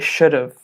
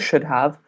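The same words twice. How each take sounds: First: Have is reduced to a quick 've sound. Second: Have is fully pronounced, more slowly.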